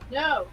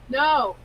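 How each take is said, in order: First: It is said plainly, without extra force. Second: It is said with strong, emphatic force.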